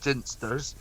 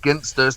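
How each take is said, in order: First: It begins with a soft J-like sound. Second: It begins with a hard G sound. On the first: The speaker calls it wrong. "not Ginsters" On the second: The speaker calls it right. "it's Ginsters"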